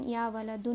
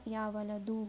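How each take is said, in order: First: ولدن keeping its final n after یا; wrong heavy ending. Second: ولدو ending in "u", no n; light ending. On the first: Teacher showing the form to avoid, ولدن ending heavy in "un". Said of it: "یا ولدن نہیں ہوگا". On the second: Teacher showing the called form, ولدو ending light in "u". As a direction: drop the final n, ولدو. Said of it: "وہ بن جائے گا light". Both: Shown as a demonstration.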